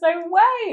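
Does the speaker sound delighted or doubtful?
delighted. It sounds happy and excitedly surprised. The news is welcome and surprising. "we could be really happy... We're really surprised"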